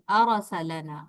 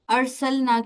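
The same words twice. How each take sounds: First: The r and l sounds carry a short vowel. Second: The r and l sounds have no vowel. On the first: The speaker calls it wrong. "उस पे अगर जबर डाल दी" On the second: The speaker calls it right. "रा और लाम दोनों साकिन थे"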